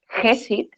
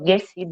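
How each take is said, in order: First: The first sound is not a hard g. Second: The first sound is a hard g. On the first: The speaker calls it wrong. "No hacemos Gesit" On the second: The speaker calls it right. "sino Gesit, ¿vale? Como esta G de gato"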